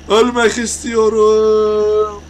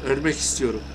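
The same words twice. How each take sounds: First: Ölmek istiyorum wailed loud, much higher and very slow; theatrical fake death wish wail; mock anguished wail. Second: Said in the usual way. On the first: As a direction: stretch ölmek istiyorum into a hammed-up cry. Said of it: "Biraz çıldırdım". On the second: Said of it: "İntihar edeceğim".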